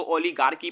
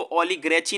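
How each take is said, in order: First: ओलिगार्की with "gaar-ki" at the end; correct pronunciation. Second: ओलिग्रेची with "gre-chi" at the end; wrong pronunciation. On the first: Teacher giving learners the reading to use, ओलिगार्की with "gaar-ki". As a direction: say ओलिगार्की with long aa and hard k. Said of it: "इसको ओलिगार्की पढ़े". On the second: Teacher showing learners the misreading to avoid, mispronounced ओलिग्रेची. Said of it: "ओलिग्रेची ना पढ़े". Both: Shown as a demonstration.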